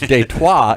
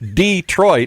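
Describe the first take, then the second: First: It has a French pronunciation. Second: It has an English pronunciation.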